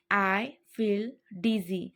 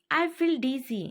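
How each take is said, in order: First: Slow, careful repeat for learners; unhurried teaching repeat. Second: Said in the usual way. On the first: Shown as a demonstration. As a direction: spell it out slowly. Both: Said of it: "teacher repeats phrase twice".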